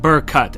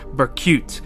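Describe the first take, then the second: First: The last syllable sounds like 'cut'. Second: The last syllable sounds like 'cute'. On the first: The speaker calls it right. "I say Burrcut, as in burr, and cut, as in scissors" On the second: The speaker calls it wrong. "not Burcute"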